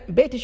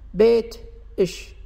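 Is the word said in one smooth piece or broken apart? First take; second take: smooth; broken. First: The word flows smoothly without a break. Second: The word breaks between the t and sh. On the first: The speaker calls it right. "بيتش هذه سليمة" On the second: The speaker calls it wrong. "الحين بوقفها... شوف النطق شو راح يكون غير طبيعي"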